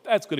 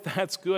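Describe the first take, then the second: First: It is said in a sincere tone. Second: It is said in a sarcastic tone. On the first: The speaker genuinely approves. The speaker calls it right. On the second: The speaker does not really approve. The speaker calls it wrong.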